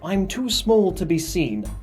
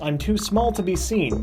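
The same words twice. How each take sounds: First: It is read in a put-on character voice. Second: It is read in a normal speaking voice.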